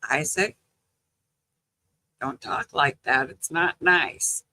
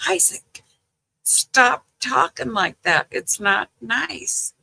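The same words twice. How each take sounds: First: Mild retold scolding. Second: Higher-pitched, drawn-out grandma reprimand; retold exasperated scolding. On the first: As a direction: gently reprove a grandchild, voice held down. Grandma's first scolding of cussing grandson. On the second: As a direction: imitate telling off a grandchild, pitch raised.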